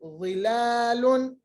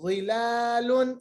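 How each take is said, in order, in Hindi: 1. सिर्फ पहली आवाज़ मोटी है, बाकी में होंठ गोल नहीं होते। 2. सिर्फ पहली आवाज़ मोटी है, बाकी में होंठ गोल नहीं होते।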